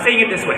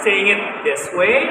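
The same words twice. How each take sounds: First: The phrase is spoken at a rushed, fast pace. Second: The phrase is spoken at a slow, calm pace. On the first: The audience finds it harder to understand. The speaker calls it wrong. "you end up speaking way too fast" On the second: The audience can follow it easily. The speaker calls it right. "instead of like saying it this way"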